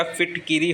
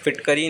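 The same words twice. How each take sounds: First: फिटकिरी as "fit-ki-ree"; i after k in फिटकिरी; correct ki syllable. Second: फिटकरी as "fit-ka-ree"; short a after k in फिटकरी; wrong ka syllable. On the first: Teacher correcting it, फिटकिरी with "ki". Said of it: "फिटकिरी होता है". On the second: Teacher showing the error, फिटकरी with "ka". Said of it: "फिटकरी नहीं होता". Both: Shown as a demonstration.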